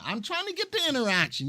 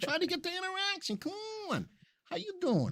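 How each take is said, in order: First: Raised, fast, eager push; a hint of mock pleading; pushing for interaction. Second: Much higher, fast, softer pleading voice; hammed-up begging for chat; mock pleading push. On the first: Host on livestream, eagerly pushing viewers to interact. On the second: Host begging stream viewers to chat, in squeaky mock pleading. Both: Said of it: "You see, I'm pushing".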